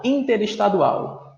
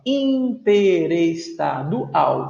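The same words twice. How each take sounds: First: Said in the usual way. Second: "Interestadual" drawn out in six slow syllables. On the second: Shown as a demonstration. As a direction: break "Interestadual" into in-te-res-ta-du-al. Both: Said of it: "seis sílabas".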